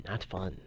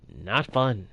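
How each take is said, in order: First: Much softer, half-swallowed repeat; muttered under breath. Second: Said in the usual way. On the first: Real, not acted. Streamer repeating it to himself after the death, muttered. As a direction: mutter it to yourself.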